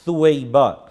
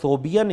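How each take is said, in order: First: The name is said as su-wai-ba. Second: The name is said as so-bi-ya. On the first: The speaker calls it right. "बल्कि ये लफ्ज़ सुवैबा है" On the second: The speaker calls it wrong. "सोबिया नाम दुरुस्त नहीं है"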